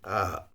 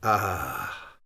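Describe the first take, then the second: First: The vowel ends plainly without any breathy h. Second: The vowel ends with a breathy h fading away. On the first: The speaker calls it wrong. "rather than just an ah" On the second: The speaker calls it right. "an aspiration, a ha, fading away"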